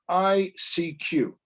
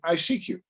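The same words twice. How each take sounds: First: The letters are said slowly and separately. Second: The letters are run together quickly. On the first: It names the three letters. "as in the letters" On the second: It sounds like a phrase about seeking someone. "if you say it quickly"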